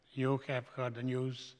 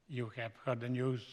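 The two takes are said the same way.

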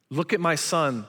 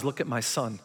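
First: Said in the usual way. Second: Soft, low, hushed tender reply; tender God voice. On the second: Retold or imitated. God answers Satan about his son, soft and tender. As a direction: whisper it like a loving father. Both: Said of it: "God says".

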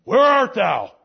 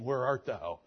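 First: Loud, high, harsh demanding call; angry God. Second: Said in the usual way. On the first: Shown as a demonstration. God confronting the hiding Adam, loud and harsh. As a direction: thunder it as an accusation. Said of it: "Does it sound better to you?". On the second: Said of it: "I don't want him saying".

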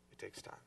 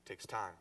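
First: Much softer, almost breathed; hushed echo of the line; hushed repeat. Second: Said in the usual way. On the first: Shown as a demonstration. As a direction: drop it to a hush to let it sink in.

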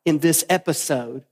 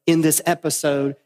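No difference in how they are said.

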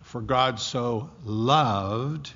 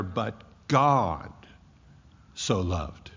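First: "God" stressed with a rising tune, said slowly. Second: "so" stressed and dropped lower on a falling tune. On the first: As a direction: lean on "God" and lift it, drawn out. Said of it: "The, the emphasis there is not". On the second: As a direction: put the weight on "so" and let it fall. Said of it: "but it's rather". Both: Shown as a demonstration.

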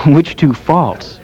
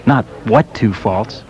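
First: "which" pushed and slowed, corrected word; correcting the wrong word by hitting "which"; stress on which. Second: "what" lifted as the wrong word; quoting the misheard word "what"; stress on what. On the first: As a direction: slowly set "which" apart. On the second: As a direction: lean on "what" to show the mistake. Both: Shown as a demonstration.

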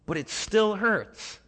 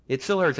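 First: Higher, slow, aching; pained. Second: Louder, pressing on still; firmer repeat. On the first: Grieving believer to a comforter, slow and pained. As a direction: let the hurt show through. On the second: Preacher driving home the grief, firm and louder. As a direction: insist on the hurt. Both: Retold or imitated.

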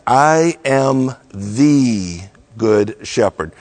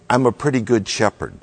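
First: Slow, weighty "I am the good shepherd" with every word landed; emphatic. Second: Quick, throwaway "I'm a pretty good shepherd" with no weight on "good"; offhand, casual. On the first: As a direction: declare it slowly, leaning on "I am" and "good". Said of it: "The language is emphatic". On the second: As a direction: toss it off fast like a shrug. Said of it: "Jesus is not saying". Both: Shown as a demonstration.

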